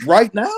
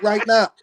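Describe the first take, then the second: First: Loud, higher rising question; taken-aback question. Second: Higher-pitched, settled answer without a questioning rise; matter-of-fact confirmation. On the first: Teller answering Bobby's sudden plane plan, taken aback. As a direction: check it in mock disbelief. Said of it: "I'm like". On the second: Bobby confirming the sudden trip to his friend, matter-of-fact. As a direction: confirm it as already decided. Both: Retold or imitated.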